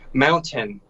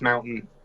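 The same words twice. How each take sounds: First: The word is pronounced carefully and fully. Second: The word is pronounced loosely in a local accent. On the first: This is how people elsewhere say it. "like you would say like mountain" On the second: This is how people here say it. "Us, it's mountain. ... There is no like nice pronunciation with it"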